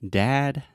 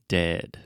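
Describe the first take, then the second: First: Dad with a wide open a. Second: Dead with a short, centred e; relaxed mouth on dead. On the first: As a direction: stretch the a in Dad. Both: Shown as a demonstration. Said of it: "listen to me say it".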